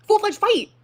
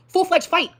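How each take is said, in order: First: Higher, louder shout of the phrase; outraged shout of full-fledged fight; louder emphatic repeat. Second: Emphatic. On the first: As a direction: hit it harder the second time. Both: Retold or imitated.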